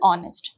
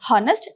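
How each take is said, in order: First: The word begins with a vowel, h silent. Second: The word begins with a pronounced h sound. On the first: The speaker calls it right. "this is silent" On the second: The speaker calls it wrong. "It is not honest"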